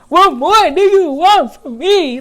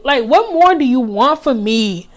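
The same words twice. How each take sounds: First: Higher, louder pleading croon like [name]; a light [name]-style plea, pitched up; [name] impression. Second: Said in the usual way. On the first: Quoting her own plea to the ex in [name]'s voice. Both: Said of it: "in my [name] voice".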